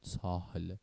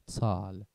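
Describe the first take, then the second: First: An h sound is pronounced after the vowel. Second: The h is silent and the vowel is long. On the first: The speaker calls it wrong. "نمیگیم تاهل" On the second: The speaker calls it right. "تال نمیگیم تاهل"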